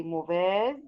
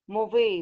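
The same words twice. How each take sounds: First: Mauvaise ending in a clear Z sound; mauvaise, final Z clearly heard; feminine form. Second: Mauvais with a silent final S, ending on open E; mauvais, final S left silent; masculine form. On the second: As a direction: say mauvais with no Z at the end. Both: Shown as a demonstration.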